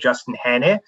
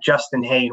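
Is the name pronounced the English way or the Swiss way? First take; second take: Swiss; English. First: The name is pronounced the Swiss way. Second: The name is pronounced the English way. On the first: This is how it is said in the family's home country. "If you were in Switzerland, which is where my family is from, you would say" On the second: This is how most of the world knows the name. "we've sort of done the Anglo pronunciation of the name"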